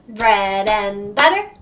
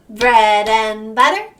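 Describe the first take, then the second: Both takes have the same delivery.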